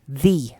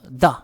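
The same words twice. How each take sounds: First: The vowel is said with the jaw raised. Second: The vowel is said with the jaw dropped. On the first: The next word starts with a vowel. "then the T H E is pronounced as the" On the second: The next word starts with a consonant. "bumabagsak yung jaw, yung panga nyo"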